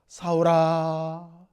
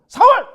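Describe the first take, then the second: First: The name is called in a pitying, sorrowful voice. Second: The name is barked harshly, like a drill sergeant.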